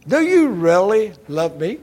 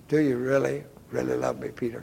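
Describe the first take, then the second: First: Lifted, insistent weight on "really"; pressing question. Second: Softening question, dropping away to the name; hushed, intimate questioning; gentle probing. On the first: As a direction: press hard on "really", louder. Jesus asks Peter a second time. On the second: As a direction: ask it quietly and searchingly. Jesus gently asks a third time. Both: Acted.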